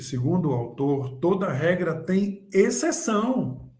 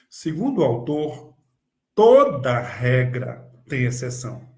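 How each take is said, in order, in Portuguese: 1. A ênfase está na palavra exceção. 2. A ênfase está na palavra regra. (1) "Agora eu vou dar ênfase na exceção" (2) "Agora eu vou dar ênfase na questão das regras"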